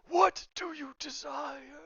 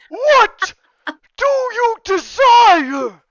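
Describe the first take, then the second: First: It is said quietly. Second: It is said loudly, like a scream.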